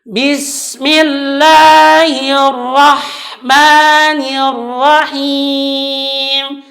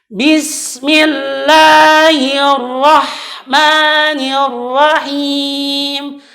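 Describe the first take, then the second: No difference in how they are said.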